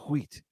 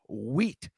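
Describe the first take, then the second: First: It starts with an h breath before the w. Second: It starts with a plain w, no h breath.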